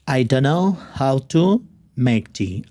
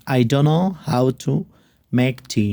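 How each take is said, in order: The two takes are said the same way.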